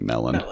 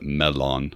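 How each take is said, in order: First: It is given the everyday English pronunciation. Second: It is given the film's Elvish pronunciation. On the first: "in our head, we're all just saying melon" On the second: "Ian McKellen pronounces it melon"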